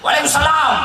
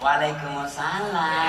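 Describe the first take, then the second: First: It is said in a firm, plain, no-nonsense voice. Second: It is said in a soft, lilting, sweet voice.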